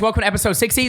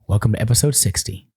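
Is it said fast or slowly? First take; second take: fast; slowly. First: It is said very fast. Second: It is said slowly and deliberately.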